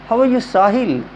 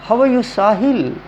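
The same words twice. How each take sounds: The two takes are said the same way.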